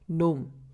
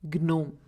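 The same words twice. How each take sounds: First: The G is silent at the start. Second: The G is sounded at the start. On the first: The speaker calls it right. "we pronounce it as gnome" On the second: The speaker calls it wrong. "instead of gnome"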